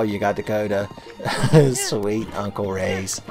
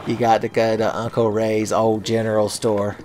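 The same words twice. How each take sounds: First: Mock Midwestern folksy accent, slow and laughing; bad Midwestern accent. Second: Said in the usual way. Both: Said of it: "what bad accent I gave them".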